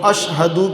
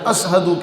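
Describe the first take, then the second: First: The middle consonant is an 'sh' sound. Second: The middle consonant is an 's' sound. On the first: The speaker calls it right. "अशहदू के बजाय" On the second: The speaker calls it wrong. "वो शीन नहीं पढ़ते थे, वो सीन पढ़ते थे"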